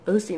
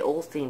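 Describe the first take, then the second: First: The name is said without an L sound. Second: The name is said with an L sound. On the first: The speaker calls it right. "I always mispronounce his last name" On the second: The speaker calls it wrong. "I always want to say Olstein, but that is not his name"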